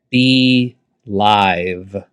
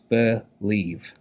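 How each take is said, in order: First: The second syllable has an 'eye' vowel. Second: The second syllable has an 'ee' vowel. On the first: This follows the phonics rule for the spelling. "That's why I'm going to say be live" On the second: This is how the word is normally said. "it doesn't say I, which it should, but it actually says E"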